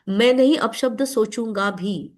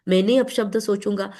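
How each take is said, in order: First: Slow, deliberate stress on "नहीं"; emphatic restatement. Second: Said in the usual way. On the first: Shown as a demonstration. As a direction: stretch and punch "मैं नहीं", slow delivery.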